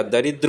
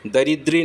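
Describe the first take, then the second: First: दरिद्र said da-ri-dra, with no ee at the end; the right दरिद्र, ending on dra; correct form. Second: दरिद्री said da-rid-ri, ending in a long ee; the mistaken दरिद्री, long ee at the end; wrong form. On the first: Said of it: "दरिद्र होता है". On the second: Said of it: "दरिद्री नहीं होता". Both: Shown as a demonstration.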